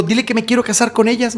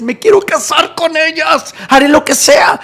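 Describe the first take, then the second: First: Softer, slightly raised request; subdued plea. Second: Desperate plea. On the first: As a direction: make the request before breaking out. First, held-back take of plea. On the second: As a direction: wail it like a lovesick man. Second take, escalated desperate plea. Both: Retold or imitated.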